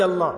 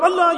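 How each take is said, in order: First: Said in the usual way. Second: Loud answer. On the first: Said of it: "Yes, you'll say loudly". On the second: Shown as a demonstration. Answering the preacher's question about the shop, loud call. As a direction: call out Allah high and loud. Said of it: "you'll say loudly".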